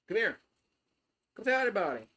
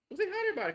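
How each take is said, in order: First: A light sing-song coax to the dog; coaxing pet voice. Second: Put-on much higher, squeaky baby talk; squeaky pet voice. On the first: Acted. To the dog, coaxing it to greet the viewers, lightly raised pet voice. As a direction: call the dog over sweetly, only a touch higher. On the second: To the dog, urging it to say hi, very high baby talk. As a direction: coo at the dog like it's a puppy. Coaxing the dog to greet viewers.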